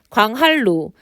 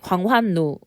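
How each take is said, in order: First: The middle consonants are pronounced as l-sounds. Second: The middle consonants are pronounced as n-sounds. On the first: The speaker calls it right. "유음화로 발음해야 되는데" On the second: The speaker calls it wrong. "비음화로 발음했기 때문이죠"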